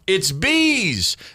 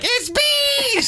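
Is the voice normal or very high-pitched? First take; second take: normal; very high-pitched. First: It is said at a normal pitch. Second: It is said in a very high-pitched voice.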